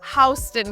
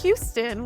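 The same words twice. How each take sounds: First: It is said unlike the Texas city's name. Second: It is said like the Texas city's name. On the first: The speaker calls it right. "We call it Houston Street" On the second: The speaker calls it wrong. "We don't pronounce this Houston"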